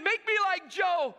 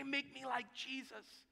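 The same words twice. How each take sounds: First: Loud, high, tearful shout; crying plea. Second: Soft, slow, hushed correction; gentle correction. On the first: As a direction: cry out the plea, imitating tears. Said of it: "and he's crying". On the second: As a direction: quietly coach him. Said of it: "You need to say". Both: Retold or imitated.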